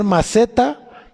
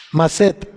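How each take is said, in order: First: Said in the usual way. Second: "Maset" with no final A, accent on the E; stress on final E. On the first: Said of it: "como si fueras a poner maceta". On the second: Shown as a demonstration. Teacher showing the Hebrew word, "Maset" accented on the E. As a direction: say "Maset" stressed on its last syllable. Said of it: "sin la A y acento en la E".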